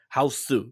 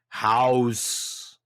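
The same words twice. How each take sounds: First: It is said Japanese-style, like hausu. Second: It is said English-style, like house. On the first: "that film in Japanese would be" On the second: "In the trailers"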